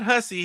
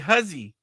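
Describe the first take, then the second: First: The middle consonant is a hissing s sound. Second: The middle consonant is a buzzing z sound. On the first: The speaker calls it wrong. "not Hussy" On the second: The speaker calls it right. "it's pronounced Huzzy"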